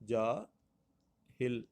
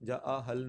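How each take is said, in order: First: The last syllable has an i vowel. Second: The last syllable has an a vowel. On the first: The speaker calls it right. "दुरुस्त इसका जो तलफ़्फ़ुज़ होगा" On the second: The speaker calls it wrong. "जा आहल नहीं है"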